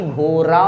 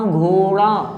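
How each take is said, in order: First: घोरा with a thin light र; wrong घोरा. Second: घोड़ा with a flapped retroflex ड़; correct घोड़ा. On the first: Teacher imitating students' wrong घोरा. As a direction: say घोरा with a plain tap. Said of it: "घोरा नहीं". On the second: Teacher showing the correct spoken घोड़ा. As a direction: jerk the tongue on the ड़ of घोड़ा. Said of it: "लेकिन आप पढ़ते हैं घोड़ा". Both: Shown as a demonstration.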